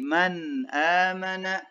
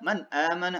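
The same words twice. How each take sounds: First: The phrase is said at a moderate pace. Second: The phrase is said too quickly. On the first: The speaker calls it right. "tapi man amana ya" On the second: The speaker calls it wrong. "tidak juga terlalu cepat"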